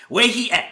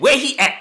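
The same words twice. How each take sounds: First: A hint of a put-on old lady, higher. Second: High, louder put-on lady voice. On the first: Coworker mimics the lady storming in, lightly voiced. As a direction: lightly mimic a demanding customer. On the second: Coworker mimics the lady storming in, higher. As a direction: ham up the demanding lady.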